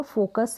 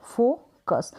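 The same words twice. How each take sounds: First: Said in the usual way. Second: फोकस split as फो, then कस; syllable by syllable. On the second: Shown as a demonstration. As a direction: hold "fo" in फोकस, pause, then "kas". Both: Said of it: "उसको break करेंगे".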